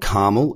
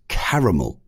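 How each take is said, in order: First: The word is said with an American pronunciation. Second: The word is said with a non-American pronunciation. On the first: The speaker calls it wrong. "For those in America, it's not caramel" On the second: The speaker calls it right. "it's caramel. It is caramel"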